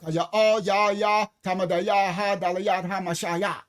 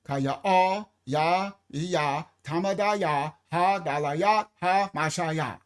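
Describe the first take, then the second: First: Kaya all ya ya chopped into even syllables; syllable demo. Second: Kaya ah said in separate even syllables; syllable demo. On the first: Showing the congregation the syllables, evenly chopped. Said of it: "Put your hand under your tongue". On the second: Repeating the syllable count for listeners, evenly chopped. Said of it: "I'm gonna do it again". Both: Shown as a demonstration.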